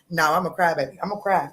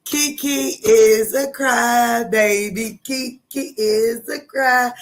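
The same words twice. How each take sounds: First: Said in the usual way. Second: Slow, drawn-out playful chant; higher, slow mock announcement; teasing singsong. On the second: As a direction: stretch it out like a playground taunt. Playful teasing singsong about herself.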